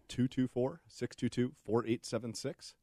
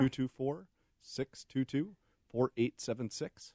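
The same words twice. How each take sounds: First: The number is said at normal speed. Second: The number is said more slowly.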